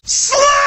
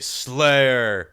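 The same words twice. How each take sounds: First: It is shouted loudly with excitement. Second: It is said in a calm, plain voice.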